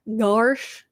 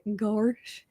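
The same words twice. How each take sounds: First: It is said in the speaker's normal voice. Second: It is said in a goofy cartoon-character voice.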